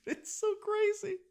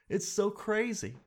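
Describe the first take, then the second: First: Very high, slow squeal of disbelief; hammed-up high-pitched "it's so crazy"; squeaky disbelief. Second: Said in the usual way.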